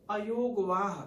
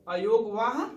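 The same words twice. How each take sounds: First: Said in the usual way. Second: अयोगवाह said again louder, with a rising end; term repeated with emphasis. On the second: Shown as a demonstration. Teacher repeats the new term for students, louder and rising. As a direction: lean on अयोगवाह the second time, louder and lifting at the end. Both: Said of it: "अगला है".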